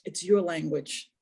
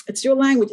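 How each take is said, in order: First: Said in the usual way. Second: Louder, stress on "your" in "It's your language"; emphatic repeat. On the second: Shown as a demonstration. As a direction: hit "your" hard, falling on "language".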